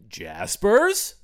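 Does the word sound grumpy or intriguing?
intriguing. Said in a mysterious, intriguing tone. The place sounds worth finding out about. The speaker calls it right. "Now I'm curious about Jaspers"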